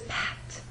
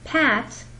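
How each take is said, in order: First: The word is whispered without voice. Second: The word is said in a normal voice.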